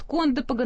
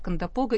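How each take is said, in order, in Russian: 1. Ударение на первом слоге. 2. Ударение на одном из последующих слогов. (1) "местные жители, да, они говорят «Кондопога» на первом слове" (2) "все русские словари говорят «Кондопога»"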